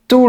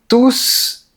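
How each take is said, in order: First: The final S sound is silent. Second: The final S sound is pronounced. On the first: It qualifies the noun right after it. "On dit tous les jours sans prononcer la lettre S" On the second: It refers back to the subject before it. "on dit ils mangent tous en prononçant la lettre S"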